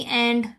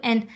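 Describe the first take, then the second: First: "and" with its final d sounded; all sounds kept in "and"; clear strong form. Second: "and" reduced to "an"; weak form. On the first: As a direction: pronounce "and" fully and clearly. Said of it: "हम लोग बहुत clearly and पढ़ रहे होते हैं". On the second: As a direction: drop the final d of "and". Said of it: "डी sound जो है वो बिल्कुल क्या हो जाती है". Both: Shown as a demonstration.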